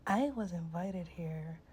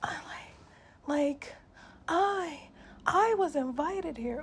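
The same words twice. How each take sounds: First: Said in the usual way. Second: Higher, louder whiny mock, slowing at the end; mocking entitled woman. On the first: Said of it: "catching an attitude with me and being like". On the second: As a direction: mimic her loud and whiny, dragging it out. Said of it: "she kept saying it like".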